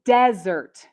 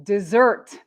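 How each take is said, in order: First: Desert as DEZ-ert; desert with strong short-E DEZ, weak ending; noun stress on first syllable. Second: Desert as dih-ZERT; desert with short weak first syllable, strong ZERT; verb stress on second syllable. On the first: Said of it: "The first one is the noun". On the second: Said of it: "we have the verb". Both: Shown as a demonstration.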